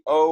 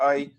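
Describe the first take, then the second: First: The vowel is a plain, steady o sound. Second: The vowel glides from o into a y sound. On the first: This is the common standard pronunciation. "we're going to be pronouncing it as O, which is the much more common way"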